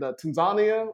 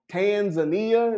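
First: It is said in a plain, neutral accent. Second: It is said in a Southern US accent.

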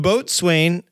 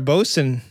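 First: It is said as spelled, boat-swain. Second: It is said in short form, bo-sun. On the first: The speaker calls it wrong. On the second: The speaker calls it right.

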